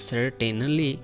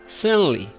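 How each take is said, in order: First: The T in the middle is clearly pronounced. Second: The T in the middle is dropped. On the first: The speaker calls it wrong. "This word looks like it is saying that certainly" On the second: The speaker calls it right. "we should say it certainly. Just skip the T sound"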